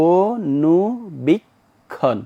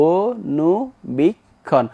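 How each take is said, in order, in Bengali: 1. প্রতিটি অক্ষর আলাদাভাবে, থেমে থেমে উচ্চারিত হয়। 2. প্রতিটি অক্ষর আলাদাভাবে, থেমে থেমে উচ্চারিত হয়।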